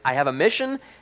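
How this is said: It is asked with a questioning rise.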